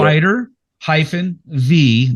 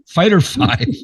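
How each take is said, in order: First: The last word is said as the letter V. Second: The last word is said as the number five. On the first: The speaker calls it wrong. "I've been saying fighter V the whole time" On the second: The speaker calls it right. "it's a Roman numeral for five"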